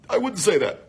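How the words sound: It is spoken while breathing in at once. "On the East Coast, people speak while they're still inhaling a cigarette"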